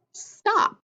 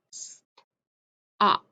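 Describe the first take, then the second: First: Said in the usual way. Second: "stop" broken into separate sounds with pauses; sounded out. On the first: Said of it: "put them together to make a word". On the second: Shown as a demonstration. Teacher gives children sounds to echo, "stop" sounded out in pieces. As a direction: draw out "stop" in pieces, leaving gaps for blending. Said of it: "echo the sounds that I say".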